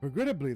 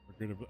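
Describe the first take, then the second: First: It is said in a different voice. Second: It is said in Kosetsu's voice.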